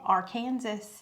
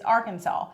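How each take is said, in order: First: The word ends like 'Kansas' with a spoken s. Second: The word ends in 'saw' with a silent s. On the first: The speaker calls it wrong. "you're not supposed to say that" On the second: The speaker calls it right. "The only acceptable way to pronounce it"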